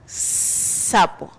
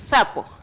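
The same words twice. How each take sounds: First: The s is made with the tongue behind teeth. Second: The s is made with the tongue pushed out. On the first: The speaker calls it right. "mi lengua esté detrás de los dientes eh, inferiores" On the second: The speaker calls it wrong. "pone por ejemplo la lengua en otro lado, la saca"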